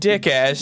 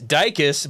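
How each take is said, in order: First: The name sounds like 'dick ass'. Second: The name sounds like 'dykus'. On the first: The speaker calls it wrong. "how do you pronounce this guy's name?" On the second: The speaker calls it right. "It's Dykus, by the way"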